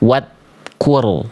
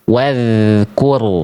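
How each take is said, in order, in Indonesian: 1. Bunyi dh digigit dan terdengar tertahan. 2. Bunyi dh ringan dan mengalir. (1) "itu digigit tuh" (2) "Tempel tipis-tipis ngalir suaranya"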